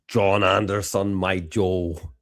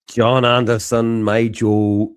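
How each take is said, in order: First: It is said in a Scottish accent. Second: It is said in a Northern Irish accent.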